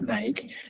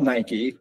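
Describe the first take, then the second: First: It is said the way Europeans said it. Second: It is said the way the brand intends. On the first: The speaker calls it wrong. "not Nike" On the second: The speaker calls it right. "it's called Nike"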